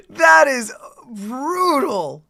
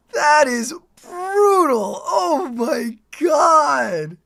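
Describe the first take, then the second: First: Slow, awed and raised; excited. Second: Slow, high, crying-out shout; awed shout. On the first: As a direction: savor how brutal it is. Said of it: "said again". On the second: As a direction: shout it in disbelief. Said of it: "second take, shouted". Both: Real, not acted.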